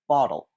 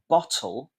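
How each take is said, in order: First: The middle consonant is a soft d sound. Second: The middle consonant is a clear t sound.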